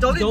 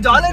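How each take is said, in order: First: The first syllable sounds like 'jow'. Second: The first syllable sounds like 'jaa'. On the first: The speaker calls it right. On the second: The speaker calls it wrong. "ಅದು ಜಾಲಿನ್ ಅಲ್ಲ"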